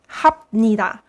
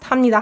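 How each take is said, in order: First: Each syllable is enunciated separately and carefully. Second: The syllables run together quickly, sounds merging. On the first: "if you enunciate it, you can read it" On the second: "you can try saying 합니다 really fast"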